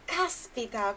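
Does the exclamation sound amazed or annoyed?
amazed. It sounds amazed and impressed. The speaker is impressed by good news. "indica surpresa, indica estar maravilhado"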